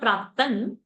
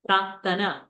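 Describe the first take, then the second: First: The word ends on a consonant, final vowel dropped. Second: The word ends on a full final vowel. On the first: The speaker calls it wrong. "It's not Praktan" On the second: The speaker calls it right. "Tana is a full"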